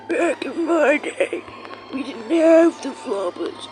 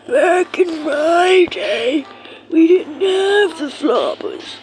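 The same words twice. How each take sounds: First: Put-on slow, creaky old man voice; grandpa voice. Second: Put-on very old man, higher, louder, very slow; a hammy grandpa reminiscing, slowly. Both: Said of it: "how much y'all rate my, um, grandpa voice".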